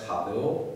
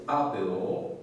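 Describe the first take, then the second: First: HABEO begun with a breathed h; aspirated h. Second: ABEO begun on a bare vowel, no h; no aspiration. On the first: Lecturer contrasting it with abeo, HABEO with an aspirated h. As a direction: aspirate the first syllable of HABEO. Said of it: "with the difference that the first syllable". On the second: Lecturer demonstrating an unaspirated Latin word, ABEO with no h. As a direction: say ABEO without aspirating the first syllable. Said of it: "first syllable has no aspiration". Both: Shown as a demonstration.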